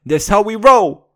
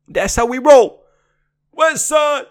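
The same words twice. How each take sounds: First: Higher, louder hype shout; gangster shout. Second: Even higher, louder hype yell; louder gangster shout. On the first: Mock gangster rapper shouting a boast. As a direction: hype it like a crowd chant. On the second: Mock gangster rapper yelling West Side. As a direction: crank the hype all the way up. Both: Acted.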